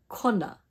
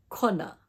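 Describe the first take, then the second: No difference in how they are said.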